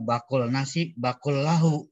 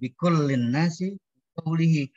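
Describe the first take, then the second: First: The words are read with 'ba' vowels, like 'bakul'. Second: The words are read with 'bi' vowels throughout. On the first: The speaker calls it wrong. "dia bacanya apa? Bacanya" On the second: The speaker calls it right. "Betulnya bacanya begitu"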